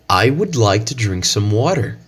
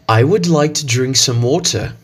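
First: It is spoken in an American English accent. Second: It is spoken in a British English accent. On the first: "the phrase using the American accent" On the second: "the phrase using the British accent"

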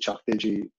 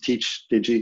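First: The first word is said the Irish way, like 'chock'. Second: The first word is said like English 'teach'. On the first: It is the Irish name meaning digital house. "So the Irish for digital is DigiChuck, and we've turned that around to Chuck Digi" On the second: It is the reading for people who don't speak Irish. "Or you can pronounce it Teach Digi if you're not an Irish speaker"

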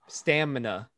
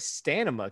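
First: The M sound comes before the N sound. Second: The N sound comes before the M sound. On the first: The speaker calls it right. "there you go" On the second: The speaker calls it wrong. "You put the N where the M was and the M where the N was"

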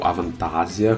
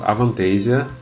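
First: It is said with a German accent. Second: It is said with a Brazilian Portuguese accent.

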